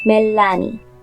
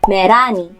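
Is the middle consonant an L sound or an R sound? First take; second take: L; R. First: The middle consonant is an L sound. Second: The middle consonant is an R sound. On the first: "If you want to produce the L sound" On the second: "this will become Merani"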